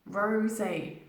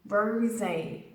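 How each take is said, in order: Both takes have the same delivery.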